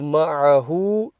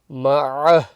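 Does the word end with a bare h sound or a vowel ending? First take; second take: vowel ending; bare h. First: The word ends with an h and u vowel. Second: The word ends with a soft h sound. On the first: The reader continues without stopping. The speaker calls it wrong. "Instead of ma'ahu" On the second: The reader stops at this word. The speaker calls it right. "you say ma'ah"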